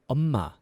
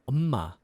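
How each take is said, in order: The two takes are said the same way.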